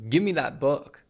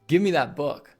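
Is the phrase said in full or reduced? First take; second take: reduced; reduced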